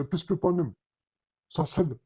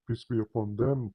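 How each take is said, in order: First: Higher, rattled-off blessing, words run together; careless rush. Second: Mock-reverent, measured blessing; slow and careful. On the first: Retold or imitated. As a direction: imitate a hasty rote formula. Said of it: "they will say it very slowly and very carefully". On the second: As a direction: imitate a careful, respectful blessing. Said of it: "very slowly and very carefully".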